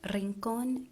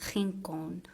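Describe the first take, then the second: First: The R is rolled with the tongue tip. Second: The R is guttural, made in the throat. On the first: "this traditional Spanish R is a rolled R" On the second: "the French R sound, which is more like guttural"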